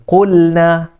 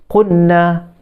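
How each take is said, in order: Both takes have the same delivery.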